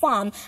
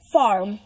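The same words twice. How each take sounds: First: The r after the vowel is dropped. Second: The r after the vowel is pronounced. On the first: "हम आर को किसी vowel के बाद cut कर देते हैं ब्रिटिश में" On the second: "लेकिन अमेरिकन में ऐसा नहीं होता"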